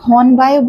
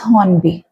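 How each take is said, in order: First: The name ends with an 'eye' sound. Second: The name ends with an 'ee' sound. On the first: The speaker calls it wrong. "कुछ लोग हॉर्नबाय बोलते हैं, ... the pronunciation is not हॉर्नबाय" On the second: The speaker calls it right. "it is हॉर्नबी"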